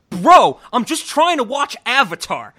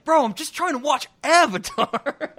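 First: High, loud fed-up yell; imitating an angry outburst. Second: High, loud laughing imitation; quoting while laughing. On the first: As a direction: mimic him blowing up at the remote. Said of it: "throws it across the room and he goes". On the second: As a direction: giggle through the quoted line. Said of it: "Just that line".

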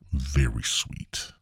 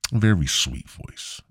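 First: Whispered, slow and sweet. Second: Said in the usual way. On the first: Shown as a demonstration. Describing the caller's voice, soft slow whisper. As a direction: breathe it softly and slowly.

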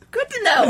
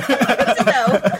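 First: Quick, high, surprised take. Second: Stretched out slowly with a laugh; wry slow echo of the same line; slow drawn-out repeat. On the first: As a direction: toss it off surprised. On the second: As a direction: drag the words out, amused. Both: Retold or imitated.

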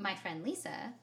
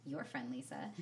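First: "my" picked out, pitch lifting at the end; stress on MY. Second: Lower, falling, with "your" picked out; stress on YOUR. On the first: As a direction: claim her with weight on "my". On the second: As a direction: hand her over with weight on "your". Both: Real, not acted. Clarifying whose friend Lisa is.

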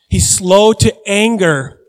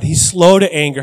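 First: "He's slow to anger" stretched out, higher, each word weighted; slow emphatic repeat. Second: Said in the usual way. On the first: Real, not acted. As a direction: drive home SLOW and ANGER, drawing them out.

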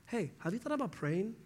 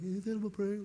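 First: Higher, softer, sweetly preachy; a light imitation of a churchy friend; mock pious suggestion. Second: Higher, softer cartoon mock of "praying"; lightly done meme voice mocking advice; mocking SpongeBob meme. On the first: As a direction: offer it like an easy fix. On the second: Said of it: "the SpongeBob, like, meme".

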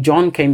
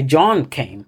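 First: Said in the usual way. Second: John drawn out with a pitch swing, then falling; stress on John. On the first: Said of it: "you want to emphasize the person". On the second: Shown as a demonstration. Linguist showing a student how English marks focus, stress on John. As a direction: put the emphasis on "John". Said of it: "your emphasis, um, is placed on John".

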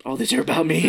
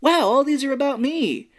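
First: Letting the truth sink in; dawning realization. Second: High-pitched, delighted amazement; big starry-eyed wow, pitched way up. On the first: Retold or imitated. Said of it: "And then he's like". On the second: Acted. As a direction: marvel out loud at seeing yourself everywhere. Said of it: "The real reaction that you would normally have".

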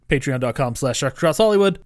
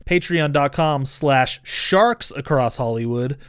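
First: "sharks" rushed, its S swallowed; spoken too quickly. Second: "sharks" said slowly with a clear final S; stress on sharks. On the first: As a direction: rattle off "sharks" fast, dropping the S. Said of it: "I spoke too quickly". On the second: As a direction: stretch out "sharks" so the S is heard. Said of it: "sharks with an S". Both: Shown as a demonstration.

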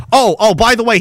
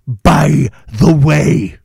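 First: Said in the usual way. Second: By the way, drawn out very slowly and heavily; slow sarcastic aside. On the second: Shown as a demonstration. Host repeating the tax news, slow deadpan sarcasm. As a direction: stretch by the way out with dry sarcasm.

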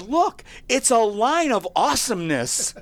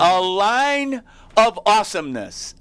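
First: High, laughing shout of delight; laughing kid. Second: A line of awesomeness, slow and loud, each word leaned on; emphatic repeat. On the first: Retold or imitated. Tyler calls to his parents, laughing and shouting. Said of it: "Tyler goes". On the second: Real, not acted. Host repeats the kid's phrase to his cohost, slow and loud. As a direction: savour "A line of awesomeness" slowly and loudly. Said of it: "host repeats the phrase for emphasis".

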